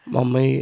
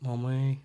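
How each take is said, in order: First: Said in the usual way. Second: Soft, retold little-kid "Mummy"; put-on child voice. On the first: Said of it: "No, I went in and I goes". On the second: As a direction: quietly play a child calling mum. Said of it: "Why are you talking like that?".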